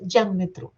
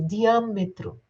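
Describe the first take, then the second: First: The 'dia' is run together as one syllable. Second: The 'a' is said as its own syllable. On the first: The speaker calls it wrong. "Você não pronuncia diâmetro" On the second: The speaker calls it right. "é diâmetro, diâmetro. Você movimenta a boca é, e deixa esse A sozinho"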